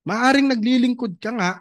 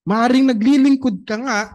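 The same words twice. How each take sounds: First: Said in the usual way. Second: Naglilingkod pushed louder and higher; louder second take, hitting naglilingkod; stress on naglilingkod. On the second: Shown as a demonstration. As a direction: repeat it and lean hard on naglilingkod.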